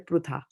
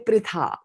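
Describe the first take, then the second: First: The vowel after pr sounds like u. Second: The vowel after pr sounds like i. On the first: This is how speakers of other Indian languages say it. "they'll say prutha" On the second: This is how our group says it. "we say pritha"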